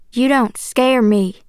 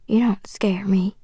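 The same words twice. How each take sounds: First: Slow, firm defiance in full voice; louder, defiant. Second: Soft, slow defiant whisper; under the breath. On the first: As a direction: say it out clearly, word by word. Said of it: "louder this time". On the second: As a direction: mutter it almost without voice. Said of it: "mostly under my breath". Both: A narrator's reading.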